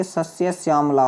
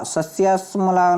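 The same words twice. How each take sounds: First: श्यामला said as syaam-laa; correct form. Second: सस्य श्यामला collapsed to sasya-smalaa; wrong form. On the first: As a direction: clear yaa glide in श्यामला. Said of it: "होता है". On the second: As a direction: drop the ya of श्यामला. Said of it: "नहीं होता बच्चे". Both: Shown as a demonstration.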